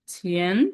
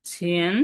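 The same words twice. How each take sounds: The two takes are said the same way.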